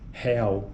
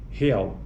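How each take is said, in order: First: The first vowel is pronounced open. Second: The first vowel is pronounced closed. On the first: "vogais pré-tônicas abertas, como em real, real, esse é, é" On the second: "diferente de real"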